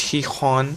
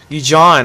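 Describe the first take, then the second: First: The name begins with an H sound. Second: The name begins with a J sound. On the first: This is the Spanish way to say it. "this is Spanish. It's he hon" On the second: This is how English speakers say it. "you English speakers are like, what the hell is he"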